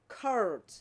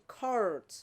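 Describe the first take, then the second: First: It is said in an American accent. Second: It is said in an American accent.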